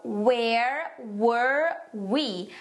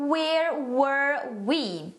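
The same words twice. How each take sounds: First: Very slow, each word stretched apart; practice pronunciation. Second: Slow, drawn-out example phrase; slow model phrase. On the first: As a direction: model "where were we" word by word for learners. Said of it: "mas vamos praticar". (pronúncia bem devagar, palavra por palavra) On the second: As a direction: say it slowly and clearly for learners. (frase de exemplo, lenta e clara) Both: Shown as a demonstration.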